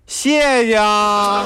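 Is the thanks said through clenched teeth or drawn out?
drawn out. The word is stretched out with long vowels. The speaker is dissatisfied. "你可以拉长音儿啊"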